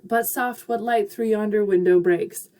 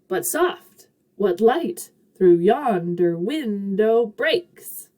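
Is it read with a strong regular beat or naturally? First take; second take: naturally; regular beat. First: It is read with natural, unmarked stress. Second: Every second syllable gets a strong lift.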